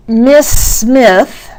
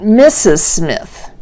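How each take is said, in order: First: Slow "Miss Smith" in two long beats; syllable-count demo. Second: Slow "Missus Smith" in three beats; syllable-count demo. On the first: Teacher contrasting similar names, slow two-beat "Miss Smith". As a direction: stretch "Miss Smith", one beat per word. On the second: Teacher contrasting similar names, slow three-beat "Missus Smith". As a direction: give "Missus" two clear syllables before "Smith". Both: Shown as a demonstration. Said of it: "hear the differences in the syllables".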